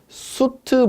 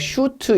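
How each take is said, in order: First: The word begins with an 's' sound. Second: The word begins with a 'sh' sound. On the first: The speaker calls it right. "정확한 것은 수트 블로우입니다" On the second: The speaker calls it wrong. "예전 명칭은 발음을 막 슈트 이렇게 나오는데"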